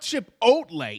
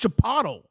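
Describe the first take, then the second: First: The middle sounds like 'oat', ending in 'lay'. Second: The middle sounds like 'ot', ending like 'Aristotle'. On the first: The speaker calls it wrong. "it's not chip oatlay" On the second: The speaker calls it right. "It's chipotle"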